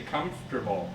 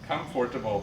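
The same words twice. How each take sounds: First: The O sound after comf is dropped. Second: The O sound after comf is pronounced. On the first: The speaker calls it right. "We just say comfortable. So you don't actually say the O" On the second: The speaker calls it wrong. "But we don't say that"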